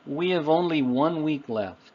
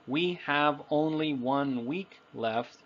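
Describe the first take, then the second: First: The words are blended together smoothly. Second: Each word is said separately and evenly. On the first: The speaker calls it right. "more naturally, we would say" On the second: The speaker calls it wrong. "it sounds a little too formal, but it also sounds robotic"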